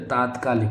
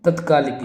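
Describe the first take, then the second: First: तात्कालिक with a long first vowel; correct form. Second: तत्कालिक with a short first vowel; wrong form. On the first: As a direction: say तात्कालिक as "taat-kaalik". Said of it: "तात्कालिक होगा". (तात्कालिक में "ता" लंबा बोलें) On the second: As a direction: say तत्कालिक as "tat-kaalik". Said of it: "ये बिल्कुल गलत है". (तत्कालिक में "तत्" छोटा बोलें) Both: Shown as a demonstration.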